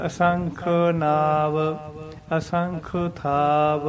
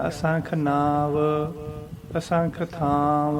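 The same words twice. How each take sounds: First: Slow, deliberate "ਅਸੰਖ ਨਾਵ", pause, "ਅਸੰਖ ਥਾਵ"; measured "ਅਸੰਖ ਨਾਵ, ਅਸੰਖ ਥਾਵ" resting after "ਨਾਵ"; correct recitation with pause. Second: Slow "ਅਸੰਖ ਨਾਵ, ਅਸੰਖ ਥਾਵ" with long nasalised vowels in the last words; wrong pronunciation demo. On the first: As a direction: sound out "ਅਸੰਖ" fully, hold "ਨਾਵ", pause, then "ਥਾਵ". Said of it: "ਨਾਵ ਤੇ ਵਿਸ਼ਰਾਮ ਲਾ ਕੇ". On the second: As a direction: run "ਅਸੰਖ" straight into a drawn-out "ਨਾਵ" and "ਥਾਵ". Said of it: "ਇਸ ਤਰ੍ਹਾਂ ਉਚਾਰਨ ਨਹੀਂ ਕਰਨਾ". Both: Shown as a demonstration.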